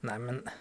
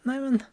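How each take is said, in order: First: "Neimen" low and soft, rising at the end; dismayed "Neimen" at foiled plans; disappointed. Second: "Neimen" high and loud, bursting with joy; joyful "Neimen" on seeing family; happy surprise. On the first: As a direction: let your plans deflate. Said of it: "a little bit differently". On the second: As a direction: greet them with a delighted cry. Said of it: "And you're happy to see them". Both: Shown as a demonstration.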